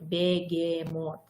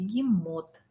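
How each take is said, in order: First: Every letter is pronounced exactly as it is written. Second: The word is pronounced in its natural everyday form. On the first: The speaker calls it wrong. "Вы же не говорите бегемот" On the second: The speaker calls it right. "Вы говорите бегемот"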